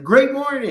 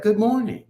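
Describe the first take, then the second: First: High, louder, bigger hello; retold upbeat greeting. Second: High, lilting hello; light imitation of a barista's greeting; retold greeting. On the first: Answering the coffee worker, high exuberant greeting. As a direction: top the greeting with an exuberant GREAT. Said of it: "And I was like". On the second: Coffee worker greeting him early, high friendly hello. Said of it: "And she's like".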